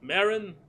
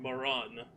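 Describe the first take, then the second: First: The name is said as 'Marin'. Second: The name sounds very close to 'moron'. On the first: The speaker calls it right. "I'm gonna pronounce it Marin" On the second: The speaker calls it wrong. "it's too close to moron if I do the other one"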